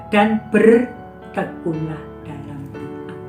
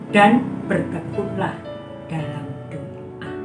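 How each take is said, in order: No difference in how they are said.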